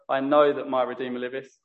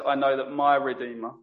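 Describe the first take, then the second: First: "know" stressed, "my" left light. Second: "my" stressed, "know" left lighter. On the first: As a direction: put the weight on "know". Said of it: "we could have emphasized". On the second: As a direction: put the weight on "my". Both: Shown as a demonstration.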